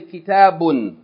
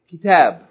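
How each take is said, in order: First: The word ends with an extra -un ending. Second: The word ends on its final consonant. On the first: The speaker calls it wrong. "you don't say kitabun" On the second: The speaker calls it right. "we're not going to pronounce the tanween if we stop on that word"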